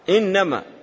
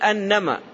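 First: The first vowel is an 'i' sound. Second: The first vowel is an 'a' sound. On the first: "يصح بكسر الهمزة" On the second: "ويصح بفتحها"

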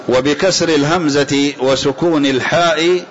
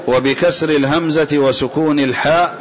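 No difference in how they are said.

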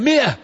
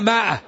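First: The first syllable has a short 'i' vowel. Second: The first syllable has a long 'aa' vowel. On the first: The speaker calls it right. "هي مئة، الميم مكسورة" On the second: The speaker calls it wrong. "تجد العام الآن يقولون ماء"

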